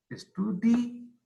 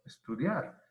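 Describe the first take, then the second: First: ESTUDI- with DI stressed, high and drawn out; wrong split, exaggerated. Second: Said in the usual way. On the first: Shown as a demonstration. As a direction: stretch ESTUDI- slowly up to a long, high DÍ. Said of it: "No decimos estudi". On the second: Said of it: "no, estudiar".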